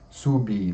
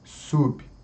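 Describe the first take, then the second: First: An extra i vowel follows the b. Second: The word ends on the b, no vowel. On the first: The speaker calls it wrong. "Não podemos colocar ali uma vogal I. Sub, não" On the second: The speaker calls it right. "Tem que ser sub"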